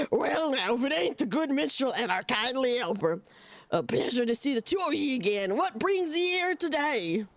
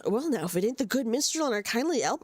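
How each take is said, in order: First: Lightly voiced old pirate accent; a hint of a growly sea pirate. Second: Pirate voice. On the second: Acted. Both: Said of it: "I can only do one pirate voice".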